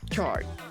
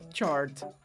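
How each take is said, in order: First: The final T is stopped without release. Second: The final T is fully released. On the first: "freando o som da letra T" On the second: "a palavra sozinha, ela tem sim o som da letra T"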